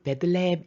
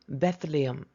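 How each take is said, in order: First: The word is said with Korean-style syllables. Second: The word is said with English sounds. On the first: "우리 베들레헴" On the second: "영어 발음 Bethlehem"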